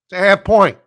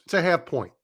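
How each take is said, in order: First: "It's a half point" yelled much louder and higher; fed-up loud correction; exasperated shout. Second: Said in the usual way. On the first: Real, not acted. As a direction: blurt out "half point" in frustration.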